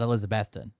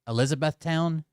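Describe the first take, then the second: First: The last syllable is reduced to 'ton'. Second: The last syllable is said as full 'town'. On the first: This is how the locals say it. "but we call it Elizabethton" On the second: This is the standard way outsiders say it. "I can't even say it that way. It feels it feels icky"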